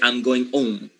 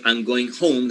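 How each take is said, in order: First: The h at the start of home is silent. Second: The h at the start of home is pronounced. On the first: "Mute, totally silent" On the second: "Instead of I'm going home"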